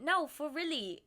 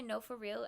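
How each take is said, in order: First: "No, for really." said with the final word stretched out, a touch louder; flubbed phrase. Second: Said in the usual way. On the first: Retold or imitated. Friend's mix-up "No, for really." mimicked, slightly louder. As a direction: imitate a friend's verbal slip, "No, for really.". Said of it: "instead she went". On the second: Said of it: "when she went to say".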